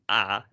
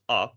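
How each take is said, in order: First: The vowel is long and tense. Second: The vowel is short and lax. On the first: The speaker calls it right. "maken is pronounced as a" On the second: The speaker calls it wrong. "and not as a"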